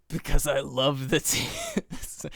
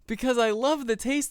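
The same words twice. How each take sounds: First: It is said in a dark, demonic voice. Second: It is said in a light, giggly voice. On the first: The speaker calls it wrong. "I was gonna do it like demonically" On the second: The speaker calls it right. "He giggled"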